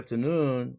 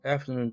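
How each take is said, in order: First: The main stress is on the last syllable. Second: The main stress is on the first syllable. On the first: "noon에 제대로 강세가 있는 것이죠" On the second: "noon이라는 액센트가 소강세로 바뀌죠. 앞에 있는 after 쪽에 대강세로 옮겨주고"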